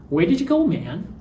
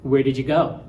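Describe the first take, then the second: First: High, accusing Where did you go man; reproachful question. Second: Said in the usual way. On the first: Shown as a demonstration. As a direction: demand why they left. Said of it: "you should have stayed here". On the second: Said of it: "You can also get man in questions".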